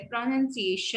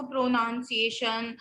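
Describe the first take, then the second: First: प्रोनंसिएशन with "nun" as second syllable; correct pronunciation. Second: प्रोनाउंसिएशन with "NOUN" as second syllable; students' mispronunciation. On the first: Teacher corrects students' mistake, "nun" instead of "noun". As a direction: say प्रोनंसिएशन as "pro-nun-si-AY-shun". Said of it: "प्रो पे जो है वो stress नहीं है". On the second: Teacher quotes students' mistake, "noun" inside the word. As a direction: say प्रोनाउंसिएशन wrongly, as "pro-NOUN-si-ay-shun". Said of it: "कितने सारे बच्चे हैं इसको". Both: Shown as a demonstration.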